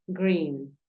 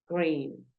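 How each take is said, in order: Both takes have the same delivery.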